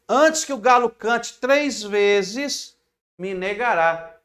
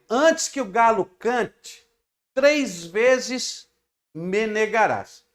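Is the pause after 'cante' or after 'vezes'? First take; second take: after vezes; after cante. First: The pause comes after 'vezes'. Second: The pause comes after 'cante'.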